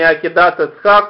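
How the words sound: Tav sounds as t, vowels are 'a'. This is how modern Hebrew says it. "а не Акидас Ицхак, как в современном иврите"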